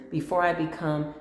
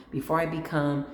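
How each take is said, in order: Both takes have the same delivery.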